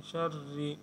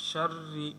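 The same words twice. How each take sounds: No difference in how they are said.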